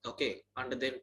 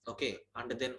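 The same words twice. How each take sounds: The two takes are said the same way.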